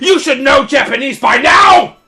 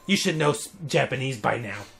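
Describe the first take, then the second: First: It is said forcefully, almost yelled. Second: It is said calmly, without extra force.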